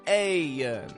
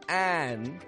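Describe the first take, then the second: First: The vowel glides through a Y-like sound first. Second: The vowel stays plain before the N. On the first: "it'll go ayan" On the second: "Instead of making an an"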